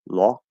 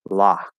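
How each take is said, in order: First: The vowel is a rounded aw. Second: The vowel is a back unrounded ah. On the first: This is an unmerged way. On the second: This is the merged Western American way. "So I say lock"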